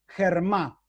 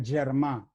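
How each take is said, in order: First: "germá" con G como jota española; pronunciación según la escritura. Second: "germá" con G suave, como una "y" rioplatense; pronunciación catalana tentativa. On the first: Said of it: "lo digo como se escribe, no como se pronuncia". ("germá" leído a la española, empezando con jota) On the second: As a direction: di "germá" a la catalana, sin jota al inicio. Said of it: "creo que se pronuncia". ("germá" como si empezara "yermá", con consonante suave) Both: Shown as a demonstration.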